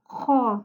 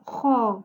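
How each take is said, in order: No difference in how they are said.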